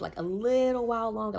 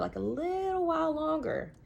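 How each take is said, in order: First: Said in the usual way. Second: High, slow, stretched-out plea; drawn-out pleading. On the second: Retold or imitated. Coaxing friends to stay longer, high and slow.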